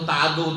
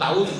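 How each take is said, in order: First: The word ends with a du sound. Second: The final d is doubled. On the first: "দালে পেশ হয়ে গেল গিয়ে শেষখানে" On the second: "দা তাসদীদ হয়ে গেল"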